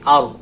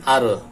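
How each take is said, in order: First: The final r sound is held steadily without bouncing. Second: The final r sound bounces off with an echo. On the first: The speaker calls it right. "tapi ar" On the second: The speaker calls it wrong. "Ra tidak dibantulkan ar"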